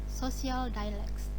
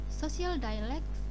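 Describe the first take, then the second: The two takes are said the same way.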